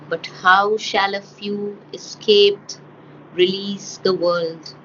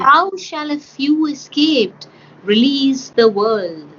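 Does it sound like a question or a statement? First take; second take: statement; question. First: It sounds flat, more like a statement. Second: It sounds clearly like a real question.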